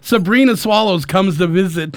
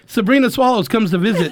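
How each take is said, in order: First: The phrase is said at a normal pace. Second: The phrase is said very quickly.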